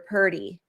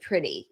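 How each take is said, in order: First: It is said like 'purdy' with a 'd' sound. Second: It is said with a clear 'pr' and 't' sound. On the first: "You'll hear purdy" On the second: "you might hear that instead of pretty"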